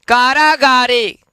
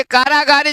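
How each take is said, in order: First: कारागारे slow, with each long vowel held; careful pronunciation. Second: Said in the usual way. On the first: Shown as a demonstration. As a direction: model कारागारे syllable by syllable. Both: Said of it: "एक बार उच्चारण कर लेंगे".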